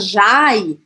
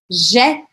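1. A vogal desliza de 'a' para 'i'. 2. A vogal é um único som simples de 'e'. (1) "eu não vou falar jai" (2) "eu vou falar je"

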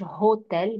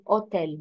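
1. الكلمة تبدأ بصوت H فيه نفس هواء. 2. الكلمة تبدأ مباشرة بحرف متحرك. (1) "ما بقولش هوتيل" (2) "زي ما بقول أوتيل"

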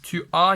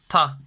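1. İki ayrı hece tam olarak söylenir. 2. Tek bir heceye kaynaşarak söylenir. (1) "tu a anşa diyoruz" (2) "bazen tu a yerine direkt ta diyorlar"

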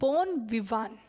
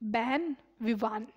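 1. पहला शब्द 'bon' जैसा लगता है। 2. पहला शब्द 'ben' जैसा लगता है। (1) "बोन नहीं" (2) "सॉरी"

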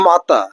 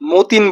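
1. শব্দটি স্বরধ্বনি দিয়ে শেষ হয়, n নেই। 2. শব্দটি স্পষ্ট n ধ্বনি দিয়ে শেষ হয়। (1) "এটা লো মাতা" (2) "মতিন বললেন না"

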